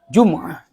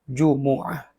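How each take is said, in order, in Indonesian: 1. Huruf m tidak diikuti vokal. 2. Huruf m diikuti vokal u. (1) "dengan mensukun huruf mim" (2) "membaca dhammah huruf mim"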